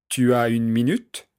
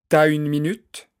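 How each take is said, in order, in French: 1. La voyelle de tu est prononcée entièrement. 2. La voyelle de tu est supprimée : elle s'élide. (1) "Au lieu de dire tu as" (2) "on dira t'as"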